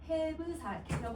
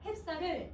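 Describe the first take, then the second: First: A short vowel separates the b and s sounds. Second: The b and s join with no vowel between. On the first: This is how the word was probably said long ago. "옛날에 아마 해브살이라고 읽었을 거야" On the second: This is how the word is said today.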